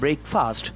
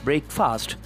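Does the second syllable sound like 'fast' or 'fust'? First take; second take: fast; fast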